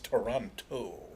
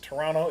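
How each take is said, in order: First: The second T sound is pronounced. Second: The second T sound is dropped. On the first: This is how Americans say it. "If you're an American, it's Toronto" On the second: This is how Canadians say it. "If you're in Canada, it's Toronto"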